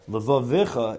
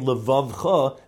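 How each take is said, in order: First: The shva is sounded as a short vowel after the v. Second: The shva is silent, with no vowel after the v. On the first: The speaker calls it right. "it's the shva, it jumps, it moves" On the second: The speaker calls it wrong. "saying levavcha instead of levavicha"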